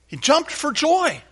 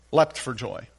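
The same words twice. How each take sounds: First: High, slow, joyful exclamation; jubilant, drawn-out cry; exuberant. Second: Said in the usual way. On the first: Acted. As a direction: stretch it out high with delight. Exuberant version of leapt for joy.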